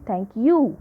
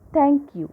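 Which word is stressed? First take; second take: you; thank. First: The word 'you' is said louder. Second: The word 'thank' is said louder. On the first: The speaker calls it wrong. "We never say thank you" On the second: The speaker calls it right. "We always say thank you"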